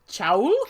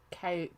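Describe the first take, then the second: First: The name does not sound like kale. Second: The name sounds like the word kale. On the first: This is how it was first read. "when I first read it, I was like, chowl?" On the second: This is how the author says it. "I'm pretty sure she, she said kale"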